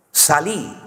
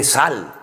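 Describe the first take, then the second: First: "Salí" stressed on the final i; Argentine imperative. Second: "sal" as one falling syllable; Spanish imperative. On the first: Spaniard quoting the Argentine command, "Salí" stressed on the last syllable. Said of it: "no se dice salí". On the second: Spaniard correcting the Argentine command, "sal" as one syllable. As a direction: say "sal" short, with no final i. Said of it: "se dice sal". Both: Shown as a demonstration.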